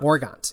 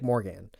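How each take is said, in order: First: The name ends with an audible T sound. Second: The name ends without any T sound.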